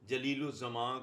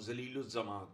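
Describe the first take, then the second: First: The name begins with a clear j sound. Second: The name begins without a j sound. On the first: The speaker calls it right. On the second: The speaker calls it wrong.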